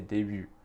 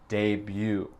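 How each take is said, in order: First: It is said with a French pronunciation. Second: It is said with an American English pronunciation. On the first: "le mot en vrai c'est début" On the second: "je vais dire avec mon accent, comme tout le monde aux États-Unis dit le mot"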